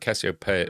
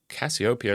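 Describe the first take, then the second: First: The stress falls on the 'pe' syllable. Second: The stress is not on the 'pe' syllable. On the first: This is the American way of saying it. "That emphasis on the P, I think, is more of an American pronunciation" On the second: This is the English way of saying it. "is how I used to say it. I think it might be more the English way of saying it"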